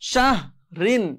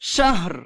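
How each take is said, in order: First: The word ends with an in sound. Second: The word ends with an r sound.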